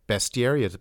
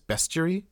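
First: The 'i' sound after the 't' is pronounced. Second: The 'i' sound after the 't' is dropped. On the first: "it's not bestiary" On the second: "as if there was no I in bestiary"

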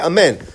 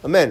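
First: The word is pronounced fully and completely. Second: The word is clipped, only half pronounced. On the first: The response is properly completed. The speaker calls it right. "you have to say amen" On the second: The response is not properly completed. The speaker calls it wrong. "you're just half of the word"

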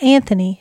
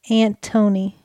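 First: The middle consonant is a th sound. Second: The middle consonant is a plain t sound. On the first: The speaker calls it wrong. "It's not Anthony" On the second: The speaker calls it right. "It's Antony. There's no H"

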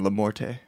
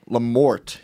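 First: The name is said in a fancy, elevated way. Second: The name is said plainly, without a fancy ending. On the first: "the elevated version" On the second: "you said that right"

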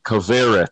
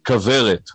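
First: It is said with an American accent. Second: It is said with a Hebrew accent.

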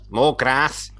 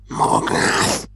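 First: It is said in a normal voice. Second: It is said in a whisper.

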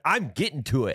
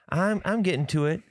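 First: The voice sounds annoyed and irritated. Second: The voice sounds apologetic and guilty. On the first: The speaker is upset about being asked. "if they piss you off and, like, you are actually, like, upset that they're asking" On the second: The speaker feels bad about being caught. "if you know you're caught and you actually feel bad about it, you can say it with a different tone"

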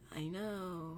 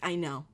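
First: It is said with a giggly, playful tone. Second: It is said with a self-assured, confident tone.

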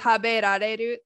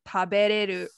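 First: The word keeps the syllable ra. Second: The word drops the syllable ra. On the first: "instead of taberareru" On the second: "some Japanese speakers drop the da"

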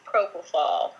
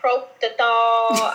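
First: The word ends with a fol sound. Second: The word has a t and ends in thol. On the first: The speaker calls it right. "the correct way to say it is propofol" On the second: The speaker calls it wrong. "I have heard proptothol"

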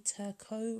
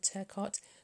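First: The name is pronounced with a French sound. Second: The name is pronounced with an English sound. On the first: "presumed French-Canadian, so it may be Turcot" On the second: "rather than Turcot"

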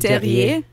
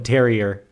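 First: The name is said with a French pronunciation. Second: The name is said with an American English pronunciation. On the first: This is how the name is really pronounced. The speaker calls it right. "but it would be Terrier" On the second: This is how people locally called the family. The speaker calls it wrong. "we called them Terrier"

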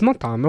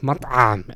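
First: The ayn sound is light and natural. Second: The ayn sound is forced and heavily stressed. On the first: The speaker calls it right. "it's matam, okay, there's an ayn, that's fine" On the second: The speaker calls it wrong. "over-enunciating ... stressing the ayn, and it sounded almost painful"

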